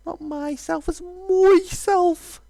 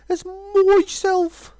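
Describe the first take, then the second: First: High, very slow, proud ending; haughty dragon. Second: Put-on as myself in a Brummie accent, myself said as mɔsɛlf; the vain dragon slipping into Brummie. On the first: Shown as a demonstration. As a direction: drag out as myself grandly. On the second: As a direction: drag out as myself in Birmingham English. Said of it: "He gets a little bit brummy sometimes".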